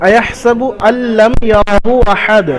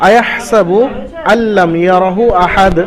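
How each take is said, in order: No difference in how they are said.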